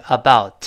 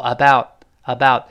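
First: "about" with its last t sounded; released final t. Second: "about" cut off with the t held back; unreleased final t. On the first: Teacher pointing out the last sound, t released. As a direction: finish "about" on an audible t. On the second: Teacher showing lost plosion, t held unreleased. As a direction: stop the tongue on the t of "About" without releasing it. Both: Shown as a demonstration. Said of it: "末尾那个t失去爆破".

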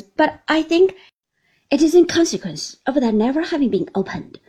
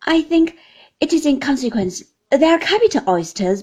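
First: Faster, louder cheerful verdict; cheerful Traddles. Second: Louder, higher, friendly verdict; the cheerful guest's opinion; cheerful Traddles. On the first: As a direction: hurry through the explanation cheerfully. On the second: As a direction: Traddles cheerfully judging the oysters. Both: A narrator's reading. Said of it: "cheerfully examining the dish".

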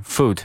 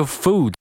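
First: "food" said compactly, oo not dragged; correct vowel. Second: "food" with an over-long oo; wrong drawn-out vowel. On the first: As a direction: keep "food" short and neat. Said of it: "它是food". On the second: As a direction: stretch "food" into "fooood". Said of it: "也不要读成food". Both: Shown as a demonstration.

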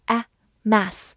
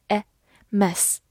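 First: The A in "mass" said with a wide-open mouth; "mass" with a broad, open short-a vowel. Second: The E in "mess" said with a half-closed mouth; "mess" with a short, narrower e vowel; small-mouthed E. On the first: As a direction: drop the jaw on the vowel of "mass". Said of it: "字母A发大口的A". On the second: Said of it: "字母E发小口的E". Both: Shown as a demonstration.

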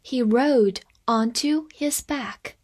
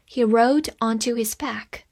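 First: Careful slow sentence reading; measured classroom pace; slow read-along. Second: Said in the usual way. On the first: Shown as a demonstration. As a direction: read it slowly for learners. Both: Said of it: "我们慢慢来读".

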